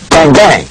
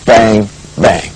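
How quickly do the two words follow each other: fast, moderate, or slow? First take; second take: moderate; slow. First: The two words come in an even, moderate rhythm. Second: The two words are spaced far apart, slowly. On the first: The speaker calls it right. "a good rhythmic, that's the 1-2" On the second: The speaker calls it wrong. "not a very slow"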